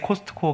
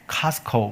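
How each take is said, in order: First: The middle t sound is clearly pronounced. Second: The middle t sound is left silent. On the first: It sounds unsophisticated. The speaker calls it wrong. "코스트코는 촌스러운 발음이라고 하더라고요" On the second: It sounds more fashionable. The speaker calls it right. "T가 묵음이라면서요"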